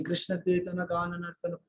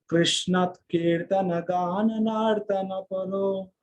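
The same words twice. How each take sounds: First: Words said level, no melody; flat wrong tune. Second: Chanted, slow, each word rising and falling in the meter's tune; chanted, let "Krishna कीर्तन गान नर्तन परो" swing up and down slowly; melodic chant. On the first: Teacher showing devotees how not to chant, flat. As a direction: rattle it off flat, without rise and fall. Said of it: "ऐसा नहीं". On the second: Chanted, teacher demonstrating the proper verse melody, slow and lilting. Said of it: "इस तरह से ऊपर नीचे होता है". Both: Shown as a demonstration.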